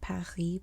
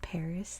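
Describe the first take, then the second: First: It is said with a French pronunciation. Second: It is said with an American English pronunciation. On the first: "in France they say Paris" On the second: "but American English it's Paris"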